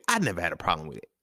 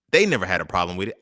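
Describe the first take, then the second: First: I pitched up at the start, then falling; stress on I. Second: THEY hit louder at the start; They stressed, the rest lighter. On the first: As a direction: lean on the word I, then drop away. Contrasts I with they. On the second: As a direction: punch the word They, then ease off. Contrasts they with I. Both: Real, not acted.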